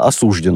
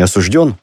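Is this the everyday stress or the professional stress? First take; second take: professional; everyday. First: The word has the professional stress placement. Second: The word has the everyday stress placement. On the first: The speaker is a prosecutor. "как у нас прокуроры говорят" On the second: The speaker is not a legal professional. "Не осужден"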